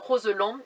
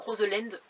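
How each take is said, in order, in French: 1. Le nom se prononce à la française. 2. Le nom se prononce à l'anglaise. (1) "mais c'est le barrage de Roseland" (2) "je le prononçais à l'anglaise"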